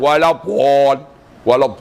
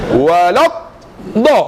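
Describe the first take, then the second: First: "Walad" with a rounded Javanese ending; Javanese accent. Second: "Walad", held stop, then firm "da"; exact articulation. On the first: Teacher mimicking how many people misread it, Javanese accent. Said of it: "tu Jawa". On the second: Teacher showing where the tongue sticks, firm "Walad... da". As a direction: split "Walad" and "da", leaning on the heavy consonant. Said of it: "da ni tak kat tadi". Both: Shown as a demonstration.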